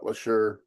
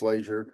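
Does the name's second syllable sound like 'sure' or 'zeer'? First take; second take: sure; zeer. First: The second syllable sounds like 'sure'. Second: The second syllable sounds like 'zeer'. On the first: This is how the local news says the name. The speaker calls it wrong. "I don't know why they keep calling it LaSure" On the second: This is how the name is really said. The speaker calls it right. "but it's Lazier"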